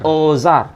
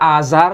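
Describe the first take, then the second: First: The first vowel is an 'o' sound. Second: The first vowel is an open 'a' sound. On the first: The speaker calls it right. "tapi dibaca" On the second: The speaker calls it wrong. "tidak dibaca Azar"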